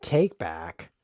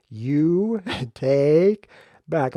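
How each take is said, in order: First: Said in the usual way. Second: You take back, each word drawn out slow; take back said slowly. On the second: Shown as a demonstration. Spelling out take back slowly for the viewers, drawn out. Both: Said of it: "Let me say it slower".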